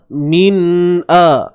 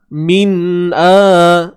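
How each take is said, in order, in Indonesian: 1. Nun dipisahkan dari vokal. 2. Nun dipisahkan dari vokal.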